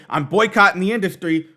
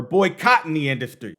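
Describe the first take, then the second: First: Put-on "boycotting" run together, stressed on its first syllable "boy"; boycotting as one word. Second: Put-on "boycotting" split as "boy, cotton", the second part stressed. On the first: Showing viewers the first meaning, "boycotting" joined as one word. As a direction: say "boycotting" as a single verb. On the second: Showing viewers the second meaning, "boycotting" split into boy, cotton. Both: Shown as a demonstration. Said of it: "two different meanings depending on whether you say".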